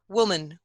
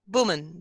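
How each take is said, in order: First: The word starts with open rounded lips, a w sound. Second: The word starts with closed lips, a b sound. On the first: "I'm not closing my mouth" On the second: "b without the puff of air"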